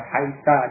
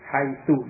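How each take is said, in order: First: The word ends with an a vowel. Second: The word ends with an u vowel. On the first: "dengan fathah" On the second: "dengan dhammah"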